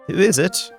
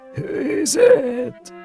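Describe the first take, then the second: First: It is said in a plain voice. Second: It is said in a suffering granny voice.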